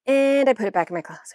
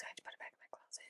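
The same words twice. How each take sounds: First: Said in the usual way. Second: Fast, breathy whispered confession; tiny whispered aside; ashamed whisper. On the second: Shown as a demonstration. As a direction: mutter it fast like a guilty secret.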